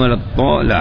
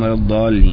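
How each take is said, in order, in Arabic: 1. الحرف صوت طاء. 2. الحرف صوت ضاد. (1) "بعضهم يبدلها طاء" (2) "بحيث لا تخرج لسانك من بين أسنانك في حالة النطق بها"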